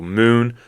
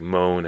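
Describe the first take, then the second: First: The vowel is an OO sound. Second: The vowel is a long O sound. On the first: This is the modern pronunciation. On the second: This is the older pronunciation.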